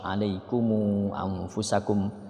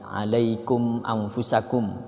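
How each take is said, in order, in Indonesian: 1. Kata pertama berakhir dengan m ditambah vokal u. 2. Kata pertama berakhir dengan m tanpa vokal.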